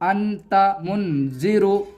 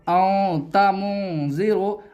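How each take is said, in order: First: The n is pronounced clearly and fully. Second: The n is hidden in a nasal sound. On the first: The speaker calls it wrong. "ऐसे नहीं पढ़ना है" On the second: The speaker calls it right. "बल्कि आपको ऐसे पढ़ना है"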